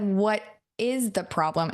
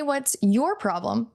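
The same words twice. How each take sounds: First: "What IS the problem", slowly spelled out; slow, deliberate question with weight on "is"; stress on IS. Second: "What's YOUR problem", drawn out slowly; slow question, all the weight on "your"; stress on YOUR. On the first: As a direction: pause on "what", then lean on "is". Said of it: "I said, "What is the problem?". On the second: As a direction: stretch and hit the word "your". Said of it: "I didn't say". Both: Retold or imitated.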